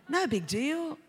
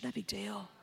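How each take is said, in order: First: Said in the usual way. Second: Hushed coax. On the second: Retold or imitated. Tempting voice, repeated.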